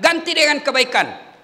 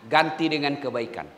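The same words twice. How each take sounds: First: "ganti dengan kebaikan" higher and louder, stress on "dengan"; louder, higher preaching repeat; emphatic repeat. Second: Said in the usual way. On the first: Real, not acted.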